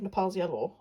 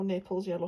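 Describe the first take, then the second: First: "Nepal's" said nuh-PALZ, stressed on the second syllable; Nepal's pronunciation. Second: "Naples" said NAY-pulz, stressed on the first syllable; Naples pronunciation. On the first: Vlogger recalling a paint name, "Nepal's" as nuh-PALZ. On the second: Vlogger offering the other pronunciation, "Naples" as NAY-pulz. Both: Shown as a demonstration. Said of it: "however people pronounce it".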